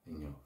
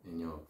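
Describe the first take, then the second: Both takes have the same delivery.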